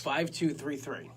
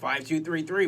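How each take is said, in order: First: It is said in a normal speaking voice. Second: It is said in a fancy announcer voice.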